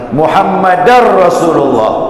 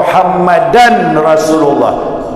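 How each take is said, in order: First: An r sound is heard before Rasulullah. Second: An n sound is heard before Rasulullah. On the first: The speaker calls it right. "Diidghamkan Muhammadan menjadi Muhammadar Rasulullah" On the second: The speaker calls it wrong. "Tulisannya begitu, tapi bacaannya jangan"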